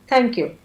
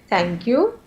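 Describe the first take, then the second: First: It sounds cold and dismissive, without warmth. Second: It sounds warm and grateful, with a rising tone. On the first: Keep the things and go. "I'm not very happy" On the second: The speaker is thanking sincerely from the heart. "I'm very politely I'm saying thank you in a rising tone"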